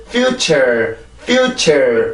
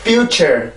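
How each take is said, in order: First: "future" with -ture falling away slackly; abrupt drop. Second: "future" bouncing up into -ture; lifted second syllable. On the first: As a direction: mistaken "future", dropping the second syllable. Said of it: "이렇게 뚝 떨어지면 절대로 안 돼요". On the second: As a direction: correct "future", both syllables supported. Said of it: "이렇게 소리가 가야지". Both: Shown as a demonstration.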